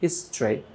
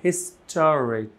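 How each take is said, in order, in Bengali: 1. t আর r-এর মাঝে কোনো স্বরধ্বনি শোনা যায় না। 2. t আর r-এর মাঝে একটা পূর্ণ স্বরধ্বনি শোনা যায়।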